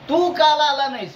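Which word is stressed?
तू. The stress falls on the pronoun 'तू'. Everyone else came except you. "बाकी सगळे आले, फक्त तू नाही आला"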